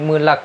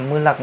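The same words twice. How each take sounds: The two takes are said the same way.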